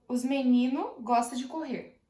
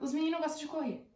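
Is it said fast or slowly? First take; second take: slowly; fast. First: It is said at a slower pace. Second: It is said quickly.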